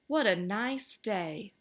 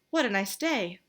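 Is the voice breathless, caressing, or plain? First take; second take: caressing; breathless. First: It is said in a soft, caressing voice. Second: It is said breathlessly, as if frightened.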